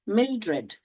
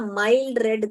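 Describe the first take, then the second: First: It is split as 'mil' plus 'dred'. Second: It is split as 'mild' plus 'red'. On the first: The speaker calls it right. "यहाँ पर divide करने का. मिल" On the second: The speaker calls it wrong. "बहुत लोग है ना माइल्ड रेड करके पढ़ते हैं. ऐसे नहीं पढ़ने का"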